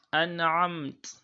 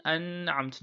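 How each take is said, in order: First: Higher, louder "An'amt", n released cleanly into the ain; nun without emphasis. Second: "an'amt" with the n held long before the ain; wrong emphasised nun. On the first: Teacher showing the right way, unemphasised n in "An'amt". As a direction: recite "An'amt" with no lingering on the n. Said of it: "recite without laying emphasis on it". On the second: Teacher showing the mistake, over-held n in "an'amt". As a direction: drag out the n of "an'amt". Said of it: "do not say an'amt". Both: Shown as a demonstration.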